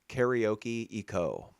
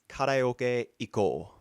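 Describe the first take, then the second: First: It is said with an English-speaker's pronunciation. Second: It is said with a Japanese pronunciation.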